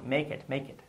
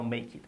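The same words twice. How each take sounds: First: "make it" run smoothly together; linked pronunciation. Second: "make it" unlinked, softer; wrong pronunciation. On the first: Teacher models it twice, linked MAKE IT. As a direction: MAKE IT as one word, "may-kit". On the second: Teacher shows what to avoid, separated MAKE IT. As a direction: MAKE IT as two separate words. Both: Shown as a demonstration. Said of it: "no make it".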